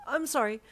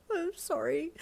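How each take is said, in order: First: Louder, higher blurted sorry, falling at the end; I'm sorry blurted out, voice dropping; plain blurted apology; nervous apology. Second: Much higher, broken and tearful sorry, rising; I'm sorry through tears, voice cracking up; crying apology. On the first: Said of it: "I was gonna give you flowers". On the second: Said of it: "you wobbled in a broken voice". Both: Acted.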